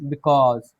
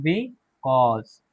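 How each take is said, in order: First: Said in the usual way. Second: Because drawn out very slowly, bikɔz; slow model word. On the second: Shown as a demonstration. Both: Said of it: "because भी पढ़ते हैं".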